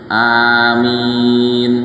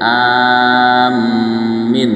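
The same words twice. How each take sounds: First: Both vowels are drawn out long. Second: Long first vowel, doubled m, short second vowel. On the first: "dipanjangkan dua-duanya" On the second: "A-nya panjang, mimnya ditasdid, I-nya pendek"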